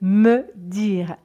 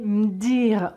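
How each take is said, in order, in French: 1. Le e de me est entièrement prononcé. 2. Le e de me tombe. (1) "au lieu de « me dire »" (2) "elle dit « m'dire »"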